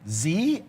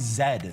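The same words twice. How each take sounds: First: The letter is said the American way. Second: The letter is said the Canadian way. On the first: "I think Americans say Z" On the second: "we say Z"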